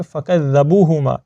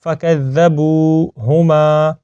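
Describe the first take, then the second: First: فَكَذَّبُوهُمَا spoken with a short, unstretched BU; mistaken short vowel. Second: فَكَذَّبُوهُمَا recited slowly with long BU and MA; elongated BU. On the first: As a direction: say فَكَذَّبُوهُمَا quickly without holding "bu". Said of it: "یعنی با کو ہم لمبا نہیں کرتے". (فَكَذَّبُوهُمَا میں با کو لمبا کیے بغیر) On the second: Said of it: "با کو ایک الف کے برابر لمبا کر دیں گے". (فَكَذَّبُوهُمَا میں با کو ایک الف کھینچ کر) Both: Shown as a demonstration.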